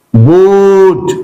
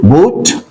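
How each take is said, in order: First: Boot drawn out with a falling end; long vowel. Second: Said in the usual way. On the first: Shown as a demonstration. Teacher modelling the word, long vowel in boot. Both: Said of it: "long vowel sound".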